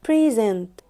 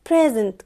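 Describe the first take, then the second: First: The stress is on the second syllable. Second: The stress is on the first syllable. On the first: It is a verb meaning to give. "في present كverb السترونج سيلابل كان المقطع التاني" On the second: It is a noun meaning a gift. "انا المقطع اللي نطقته بقوة هو المقطع الاول"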